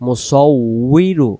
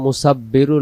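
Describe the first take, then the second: First: The middle consonant is a doubled w sound. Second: The middle consonant is a doubled b sound. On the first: The speaker calls it right. "ওখানে উচ্চারণ হবে মুসাউইরু" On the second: The speaker calls it wrong. "সে জায়গায় আমরা মুসাব্বিরু লাহুল আসমাউল হুসনা বলে ফেলি, মুসাব্বিরু না"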